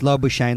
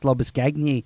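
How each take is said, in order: First: The name ends rhyming with 'champagne'. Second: The name is said with Afrikaans sounds. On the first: It is the simplified version for Australians. "pronounce Lobbershane like champagne" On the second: It is the original pronunciation. "it's in Afrikaans"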